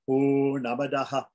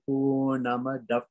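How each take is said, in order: First: The word ends with an added 'ha' echo. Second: The word ends with a slight f-like breath. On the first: "some people say Purnamadaha" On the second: "the slight F sound comes"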